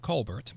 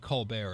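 First: The name is said the American way. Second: The name is said the French way. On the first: The speaker calls it wrong. "Americanize it to Colbert" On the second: The speaker calls it right. "I do believe Colbert is correct"

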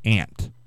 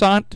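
First: The vowel sounds like the insect 'ant'. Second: The vowel is a broad 'ah' sound. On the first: This is how most people say it. "I will concede that most people probably do say aunt" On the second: This follows the spelling of the word. "But don't you think it's aunt? There's a U in that word"

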